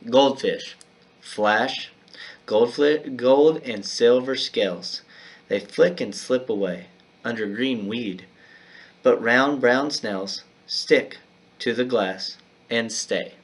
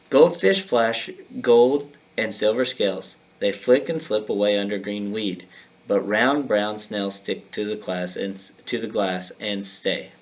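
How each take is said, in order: First: It is read with pauses at line breaks. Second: It is read as one continuous paragraph.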